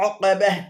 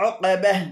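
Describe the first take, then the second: No difference in how they are said.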